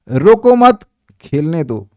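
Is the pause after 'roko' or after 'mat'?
after mat. The pause comes after 'mat'.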